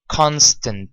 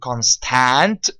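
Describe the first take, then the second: First: The second vowel is a weak schwa. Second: The second vowel is a full vowel. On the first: The speaker calls it right. "It's pronounced as a schwa sound, and that's an unstressed sound" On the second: The speaker calls it wrong. "We don't say constant"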